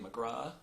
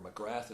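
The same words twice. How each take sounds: First: The name is said the Irish way. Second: The name is said the American way.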